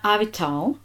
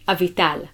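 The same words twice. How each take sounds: First: The T is released with a puff of air. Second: The T is released with no puff of air. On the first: The speaker calls it wrong. "It's not Avital" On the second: The speaker calls it right. "Which doesn't have a sort of air to it"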